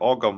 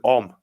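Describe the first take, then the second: First: The word is said with a g sound. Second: The word is said with no g sound. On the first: The speaker calls it wrong. "I've said it for ages, like Ogham" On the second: The speaker calls it right. "it's actually Om, the G silent"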